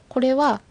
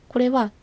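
Both takes have the same delivery.

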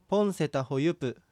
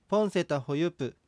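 The two takes are said the same way.

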